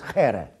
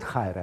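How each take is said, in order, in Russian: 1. В первом слоге простой гласный 'e'. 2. В первом слоге дифтонг 'ai'. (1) "как произносят греки" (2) "Хайре – это в эразмовском произношении"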